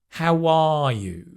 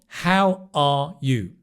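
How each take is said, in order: First: A glide sound links the words together. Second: The words are separate with no linking glide.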